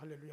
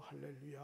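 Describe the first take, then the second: First: It is said very fast. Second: It is said fast.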